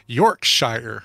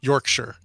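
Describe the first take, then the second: First: The ending sounds like 'shire'. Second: The ending sounds like 'sure'. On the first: The speaker calls it wrong. "You don't say" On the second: The speaker calls it right. "if it's part of a word, you say sure, like"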